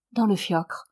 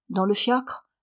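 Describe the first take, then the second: First: "Dans le fiacre" falling at the end as a statement; confirming. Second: "Dans le fiacre" rising at the end as a question. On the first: Daughter confirms by repeating. (« Dans le fiacre » en affirmation, ton descendant) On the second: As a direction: ask "Dans le fiacre" with a lift on "fiacre". Countess questions, daughter confirms. (« Dans le fiacre » en question, ton montant) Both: A narrator's reading.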